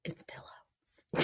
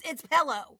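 First: Whispered pellow; whispered mocking pillow. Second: Pillow with an e, the West Texas way. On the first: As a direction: breathe the word pillow out without voice. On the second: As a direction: pillow said as pellow. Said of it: "I learned how to talk in West Texas". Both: Shown as a demonstration.

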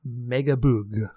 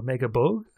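First: Megaboog with a long "oo" in the last syllable; French title pronunciation. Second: Megabogue with an "oh" in the last syllable; alternative French pronunciation. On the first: Giving the show's French name, Megaboog said with "oo". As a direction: draw out Megaboog, ending like "boog". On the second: Offering another French reading, Megabogue said with "oh". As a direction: say Megabogue, ending to rhyme with "rogue". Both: Shown as a demonstration. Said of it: "Like in French, it is".

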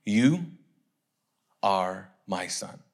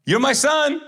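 First: Low, slow, solemn voice of God; God's voice. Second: High, loud proud-dad shout; calling out loud. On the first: God speaking to Jesus from heaven, solemn low voice. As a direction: intone it slowly and low, with long pauses. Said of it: "what did the voice say". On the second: Dad announcing his son to everyone, high loud call. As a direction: holler it publicly, pitched way up. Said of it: "he says it out loud". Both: Acted.

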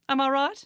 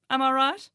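The two takes are said the same way.

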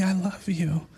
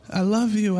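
First: A hushed, breathy I love you; soft whisper. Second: Said in the usual way. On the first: Retold or imitated. Jesus whispering to the weeping man, hushed. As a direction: whisper it like a secret comfort.

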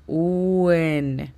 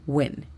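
First: "uen" drawn out as two syllables, oo-EN; mock wrong "uen"; wrong slow "uen". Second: "when" as one quick syllable, no separate u; right "when", said quickly; quick native when. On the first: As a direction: say "uen" slowly, like u then en. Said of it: "No vamos a decir uen". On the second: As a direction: clip "when" fast like a native. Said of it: "Tendría que decirse rápido". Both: Shown as a demonstration.

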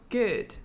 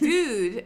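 First: "good" with a short, almost "er" vowel; British "good". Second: High "good" with a long "oo"; actress's off "good". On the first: Shown as a demonstration. Showing the proper British vowel, "good" with an "er" sound. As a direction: relax "good" toward "gerd". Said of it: "almost an er sound". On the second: Retold or imitated. Showing how the actress said it, high drawn-out "good". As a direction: push "good" up into a stretched "gooood". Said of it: "She said".

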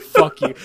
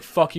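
First: A whispered, breathy "Fuck you" half swallowed by a laugh, loud; mock insult broken up by laughter. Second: Said in the usual way. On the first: Imitating the amused teacher, laughing through "Fuck you". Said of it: "he started laughing". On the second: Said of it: "I could tell he was like".

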